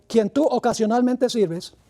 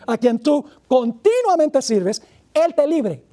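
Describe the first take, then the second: First: Said in the usual way. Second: Slow, weighty stress on "continuamente", each syllable drawn out; corrected reading, stressed. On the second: Shown as a demonstration. Preacher correcting his misreading, stress on "continuamente". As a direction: lean hard on "continuamente" to fix the slip. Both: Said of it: "no, eso, eso no dice".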